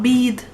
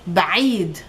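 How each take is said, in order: First: No throat consonant is heard after the b. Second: A throat consonant is heard after the b. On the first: The speaker calls it wrong. "not bead" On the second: The speaker calls it right. "there's a عين hidden here after the B"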